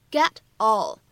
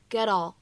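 First: Said in the usual way. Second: "get all" linked, t becomes a quick flap. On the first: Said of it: "可以有一个连读". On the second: Shown as a demonstration. Teacher showing learners "get all" linked with a flap. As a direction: join "get all" as one word, American flapped t. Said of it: "还会形成一个闪音的处理".

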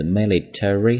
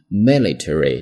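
First: "military" squeezed to three syllables, mi-li-tree; reduced-syllable pronunciation. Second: "military" with all four syllables, mi-li-te-ry; full-syllable pronunciation. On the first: Teacher showing the alternative reading, shortened syllables. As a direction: drop the vowel before "-ry" in "military". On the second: Teacher showing the first accepted reading, full syllables. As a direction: sound out the "-ta-" in "military" as a full "teh". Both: Shown as a demonstration. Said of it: "military或者military都可以".

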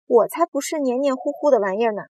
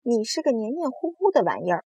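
First: Louder, higher indignant retort; indignant denial. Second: Higher-pitched, mild storybook taunt. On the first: Earthworm rejecting the slimy insult, indignant. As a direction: protest it forcefully. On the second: Centipede calling the earthworm slimy, taunting. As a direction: tease with a lifted voice. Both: A narrator's reading.

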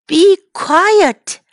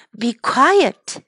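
First: Grumpy command. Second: Said in the usual way. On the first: Shown as a demonstration. Teacher playing the farmer hushing animals, cross. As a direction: snap it at the noisy animals.

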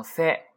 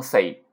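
First: 塞 as a pure se, no glide; one clean e vowel on 塞, like Japanese se; correct Japanese se. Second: 塞 gliding from e into i; wrong Chinese-style sei. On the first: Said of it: "读成塞". (“塞”读成日语se，不滑向i) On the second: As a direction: say 塞 as a Mandarin sei diphthong. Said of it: "不要读成塞". (“塞”读成中文sei，带i尾音) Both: Shown as a demonstration.

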